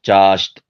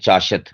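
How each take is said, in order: First: The 'sh' and 't' sounds form a cluster. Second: A vowel separates the 'sh' and 't' sounds. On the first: The speaker calls it right. "शीन भी साकिन है और ता भी साकिन है" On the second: The speaker calls it wrong. "तो ये गलत है"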